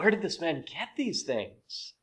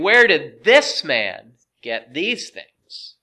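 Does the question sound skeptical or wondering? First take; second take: wondering; skeptical. First: It sounds innocent and full of wonder. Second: It sounds critical and doubting. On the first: The asker is sincerely amazed. "these seem like innocent questions to me. You know, wow" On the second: The asker is taking offense and doubting him. "the manner that they're saying"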